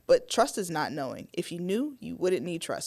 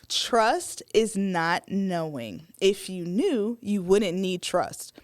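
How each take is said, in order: First: It is said at normal speed. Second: It is said more slowly.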